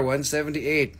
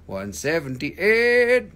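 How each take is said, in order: First: Said in the usual way. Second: Slow, stretched, a bit louder; drawn-out announcement. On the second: Shown as a demonstration. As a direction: stretch the number out like an auctioneer. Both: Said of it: "repeats the number".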